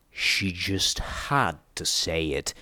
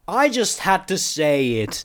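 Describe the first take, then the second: First: Low, slow, resigned mutter; quiet, lowered grumble. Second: High, drawn-out exasperated call; raised voice, stretched out, not full volume; shouting. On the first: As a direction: grumble it under your breath, dragging the words. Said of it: "P twenty-one muttered". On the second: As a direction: call it over a noisy horde. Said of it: "I shouted over the chittering". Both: A narrator's reading.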